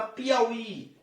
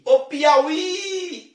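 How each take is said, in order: First: Said in the usual way. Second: "Piauí" with the final í long, high and loud; "Piauí" climbing to a held, stressed ending; stressed last syllable. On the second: Shown as a demonstration. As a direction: stretch and lift the last í of "Piauí". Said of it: "a última sílaba mais forte".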